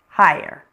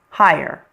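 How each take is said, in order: No difference in how they are said.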